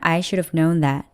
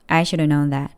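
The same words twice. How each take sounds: First: 'Should have' is reduced, ending in a v sound. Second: 'Should have' is reduced, ending in a vowel. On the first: "중간에 슈아가 있어서 마치 should 다음에 of가 있는 것 같죠? ... 그렇게 발음하면" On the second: "아예 should have의 끝 v 발음을 안 하고 있어요"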